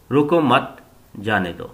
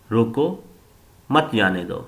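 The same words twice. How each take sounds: First: रोको मत together, a pause, then जाने दो falling; pause after मत. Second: रोको rising, a pause, then मत जाने दो in one breath; pause after रोको. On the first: Teacher shows students the comma moved after मत, pausing there. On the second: Teacher shows students the comma after रोको, pausing there. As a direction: break right after रोको, then run मत जाने दो together. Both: Shown as a demonstration. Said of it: "मुख्तलिफ अंदाज में इस्तेमाल किया गया".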